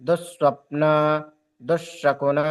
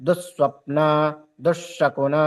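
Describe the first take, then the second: No difference in how they are said.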